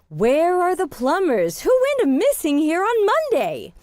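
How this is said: It sounds excited and animated, with lively energy. The speaker urgently demands to know. "if they're really animated about it"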